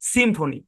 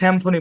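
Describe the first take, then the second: First: The first syllable has a short 'i' vowel. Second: The first syllable has an open 'a' vowel. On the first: The speaker calls it right. "সিম্ফনি কি উচ্চারণ?" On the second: The speaker calls it wrong. "আমরা অনেকে স্যাম্ফনি বলি"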